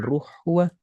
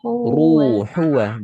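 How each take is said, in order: First: The vowel between h and w is dropped. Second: A full vowel is sounded between h and w. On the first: The speaker calls it wrong. "bukan ruhwa" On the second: The speaker calls it right.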